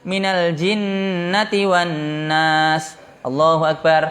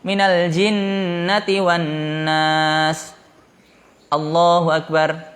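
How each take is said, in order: First: It runs straight on without a pause. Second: There is a pause before Allahu Akbar.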